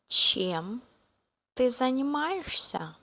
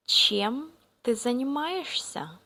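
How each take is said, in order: Both takes have the same delivery.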